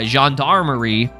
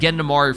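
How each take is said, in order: First: The word is said as gendarmerie. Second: The word is said as gendamari. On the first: The speaker calls it right. "I'm finally saying it right" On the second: The speaker calls it wrong. "I was calling it Gendamari for the longest time"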